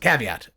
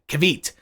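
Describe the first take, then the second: First: The word is said with all three syllables. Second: The word is said with only two syllables. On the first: The speaker calls it right. "I'm gonna say the word right this time" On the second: The speaker calls it wrong. "I forgot the syllable"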